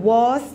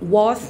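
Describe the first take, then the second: First: The vowel is long, like 'vahz'. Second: The same.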